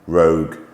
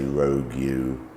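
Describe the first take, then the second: First: The word ends with a plain g sound. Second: The word ends with an added you sound. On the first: The speaker calls it right. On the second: The speaker calls it wrong. "We don't say rogue you"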